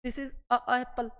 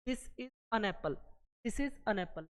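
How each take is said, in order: First: Slow, stumbling over "a apple"; awkward a apple. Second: Said in the usual way. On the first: Shown as a demonstration. Teacher contrasts wrong "a apple" for students, slowly. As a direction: drag "a apple" so the clash is heard. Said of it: "लेकिन इसको अगर आप बोलोगे तो क्या बोलोगे?". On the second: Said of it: "इसको आप बोलोगे, क्या बोलोगे?".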